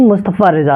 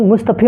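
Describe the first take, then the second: First: मुस्तफ़ा said ending in a clear open "aa"; correct pronunciation. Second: मुस्तफ़ी said ending in a long "ee", the wrong way; common misreading. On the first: Teacher correcting students on the name, clear final "aa". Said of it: "याद रखिएगा मुस्तफ़ा रज़ा है". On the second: Teacher showing students a common misreading of the name, long final "ee". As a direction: read it as मुस्तफ़ी, with the final "ee" some people use. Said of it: "अच्छा कुछ लोग मुस्तफ़ी, मुस्तफ़ी पढ़ते हैं". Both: Shown as a demonstration.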